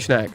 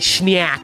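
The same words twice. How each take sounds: First: The word is said lightly, with no emphasis. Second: The word is said with heavy, drawn-out emphasis. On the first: The speaker calls it right. "it only sounds cool if you say snack. Like if it's just low key" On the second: The speaker calls it wrong. "People be putting way too much in the. They be like"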